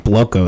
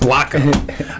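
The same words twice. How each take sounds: First: Bloco with a long O, as BLOH-koh; wrong pronunciation. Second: Bloco with an open AH, as BLAH-koh; corrected pronunciation. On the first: Host introducing his guest, mispronouncing Bloco as BLOH-koh. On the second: Host repeating the guest's correction, Bloco as BLAH-koh. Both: Real, not acted. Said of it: "Nah, it's Bloco".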